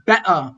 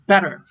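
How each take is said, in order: First: Better with the T replaced by a glottal catch, British style; glottal stop. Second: Better with a North American flapped T, like a quick D. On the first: Teacher showing British English, glottal stop in better. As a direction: cut off the T in the first better, be'uh. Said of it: "more of a glottal stop in British English". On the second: Teacher showing North American accent, flapped T in better. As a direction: tap the T lightly in better, bedder. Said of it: "where the T becomes like a flap". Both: Shown as a demonstration.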